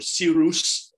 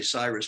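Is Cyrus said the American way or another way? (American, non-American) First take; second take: non-American; American. First: The name is given a non-American pronunciation. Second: The name is given an American pronunciation. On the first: "or Cyrus, the way they would pronounce it" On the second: "I say Cyrus because I'm an American"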